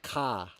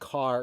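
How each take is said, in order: First: It is said in a strong Boston accent. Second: It is said in the speaker's usual, faint accent. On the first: "that's what real Boston people sound like" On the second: "just me saying car"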